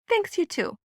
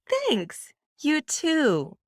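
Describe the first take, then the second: First: It sounds flat and routine, without surprise. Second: It sounds warm and surprised, voice rising. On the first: It is only a polite social pleasantry. "More normal" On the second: It seeks a genuine human connection. "More fresh and trying to bring back the genuine human connection"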